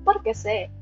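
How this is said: The question is said in an angry-sounding tone. The speaker calls it wrong. "Parang pagalit yung intonation"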